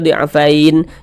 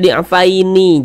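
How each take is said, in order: First: The word ends on a silent final n. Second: The word ends with an added vowel i. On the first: The speaker calls it right. "Kalau kita berwakaf di huruf nun, kita baca di'afain" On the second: The speaker calls it wrong. "Jangan dibaca di'afaini"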